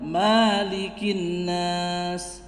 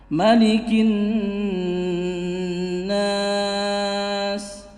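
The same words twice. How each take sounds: First: The vowel after the m is drawn out long. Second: The vowel after the m is kept short. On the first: The speaker calls it wrong. "bukan malikin nas, bukan ya, bukan seperti itu" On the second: The speaker calls it right. "tanpa dipanjangkan huruf mimnya"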